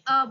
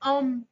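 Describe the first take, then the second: First: The vowel is said through the mouth only. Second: The vowel is said through the nose. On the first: "खाली अ बोले तो वो कहलाएगा अनअनुनासिक" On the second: "नासिका से भी उच्चरित होगा, तो वो कहलाएगा अनुनासिक"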